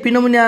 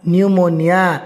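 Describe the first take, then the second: First: The word starts with a P sound. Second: The word starts with an N sound. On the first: The speaker calls it wrong. "ये तो पी अच्छी पिनोमोनिया हो ना ना ना" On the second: The speaker calls it right. "पी is not pronounced"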